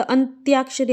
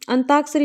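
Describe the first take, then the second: First: अंत्याक्षरी with a clear त्या, t plus y; correct pronunciation. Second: अंताक्षरी with plain ता, the य left out; mispronunciation demo. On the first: Teacher correcting students, अंत्याक्षरी with a clear tya. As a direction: sound the य after त in अंत्याक्षरी. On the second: Teacher showing students the mistake, अंताक्षरी without the य. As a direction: say अंताक्षरी without any y after the t. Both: Shown as a demonstration. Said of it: "अंताक्षरी नहीं होता".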